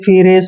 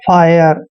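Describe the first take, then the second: First: The vowel sounds like 'ee', ending in 'reh'. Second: The vowel sounds like 'eye', ending in 'yer'. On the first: The speaker calls it wrong. "इसको ऐसे नहीं पढ़ना है" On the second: The speaker calls it right. "I R E को आयर पढ़ना है"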